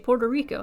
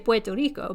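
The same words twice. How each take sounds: First: It is pronounced with English sounds. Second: It is pronounced with Spanish sounds. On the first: The speaker is speaking English. "when you're speaking English, you say" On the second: The speaker is speaking Spanish. "When you're speaking Spanish, you say"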